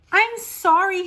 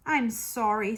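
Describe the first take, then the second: First: Put-on high, loud, upset child's plea; crying out an apology. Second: Said in the usual way. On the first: A narrator's reading. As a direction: cry out your apology like a distressed child. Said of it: "Harriet cried". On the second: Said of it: "said Harriet".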